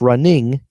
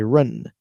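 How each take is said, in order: First: The word ends with the full -ing sound. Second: The final G sound of -ing is dropped. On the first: "Instead of running" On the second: "you take the G off the end of ing"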